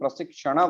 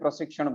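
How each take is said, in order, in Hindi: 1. शब्द एक उच्चारित लघु स्वर के साथ समाप्त होता है। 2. शब्द अपने अंतिम लघु स्वर के बिना समाप्त होता है। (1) "लेकिन संस्कृत में प्रशिक्षण" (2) "ये हिंदी में प्रशिक्षण बोलते हैं"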